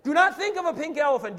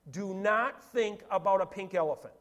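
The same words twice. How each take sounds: First: Loud, high forceful order; shouted command. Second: Said in the usual way. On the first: Shown as a demonstration. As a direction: shout the warning at the whole room. Shouts the command after roaring.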